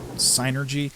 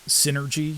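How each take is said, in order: First: The first syllable sounds like 'psych' in psychic. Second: The first syllable sounds like 'sin' in synergy. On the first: It blends psychic and energy. The speaker calls it right. "it's psychic energy" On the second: It sounds like the corporate buzzword. The speaker calls it wrong. "just like the corporate thing"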